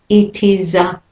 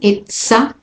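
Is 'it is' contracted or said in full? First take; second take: full; contracted. First: The words are said in full, unlinked. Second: The words are contracted and linked together. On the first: The speaker calls it wrong. "not it is a" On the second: The speaker calls it right. "And here we have a linking"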